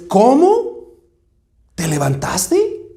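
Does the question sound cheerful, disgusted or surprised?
surprised. It sounds surprised, as if she shouldn't be alive.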